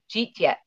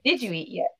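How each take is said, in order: First: The words are run together into two syllables. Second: Each word is said separately and in full. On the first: "My extended family, they'll cheat yet" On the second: "Instead of"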